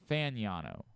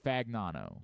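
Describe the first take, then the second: First: The G sound is silent in the name. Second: The G sound is pronounced in the name. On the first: The speaker calls it right. "apparently is how they pronounce it" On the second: The speaker calls it wrong. "you're saying uh"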